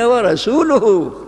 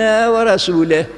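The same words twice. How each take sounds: First: The final vowel of the word is u. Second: The final vowel of the word is i. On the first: God and His messenger both disown the idolaters. The speaker calls it right. "إما ضمة" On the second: God disowns both the idolaters and His messenger. The speaker calls it wrong. "يعني الله بريء من المشركين وبريء من رسوله"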